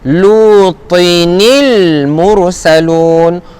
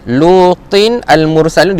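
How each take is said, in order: First: The words are joined with a linking i vowel. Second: The words are said separately with no linking vowel.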